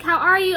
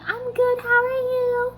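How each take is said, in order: First: Louder, quick, confident question; idol's greeting. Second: Very high, strained fan voice; starstruck squeak. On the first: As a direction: lightly imitate an easy, assured greeting. Quoting the idol, contrasted with herself. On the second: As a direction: mimic a tongue-tied fan squeaking politely. Acting out her tongue-tied reply. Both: Retold or imitated.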